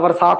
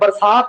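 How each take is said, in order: First: The word begins with a v sound. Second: The word begins with a b sound. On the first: The speaker calls it wrong. "ਅਗਲਾ ਬਰਸਾਤ ਬੋਲ ਦਿੰਦਾ" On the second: The speaker calls it right. "ਬੈ ਤੇ ਵਹਿ ਦਾ ਭਲੇਖਾ"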